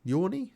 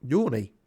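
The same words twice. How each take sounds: First: Yawny? with a high rising question tune; questioning rise. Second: Said in the usual way. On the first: Real, not acted. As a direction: lift Yawny? up as a doubtful question. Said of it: "Is yawny a thing?". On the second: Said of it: "Yawny? Is yawny a thing?".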